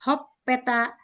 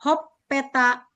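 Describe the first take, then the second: No difference in how they are said.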